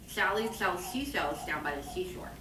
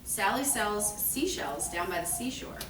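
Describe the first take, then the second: First: The s sounds are distorted by an impediment. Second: The s sounds are spoken clearly.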